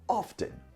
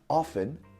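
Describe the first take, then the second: First: The T sound is pronounced. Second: The T sound is silent. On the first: "it's also correct to say it with the T sound" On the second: "notice the way I say often"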